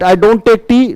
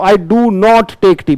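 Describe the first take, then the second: First: The words 'do not' are contracted to 'don't'. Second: The words 'do not' are said fully and separately. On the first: The speaker calls it wrong. "नहीं बोलना" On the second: The speaker calls it right. "पूरा खोल खोल के बोलो"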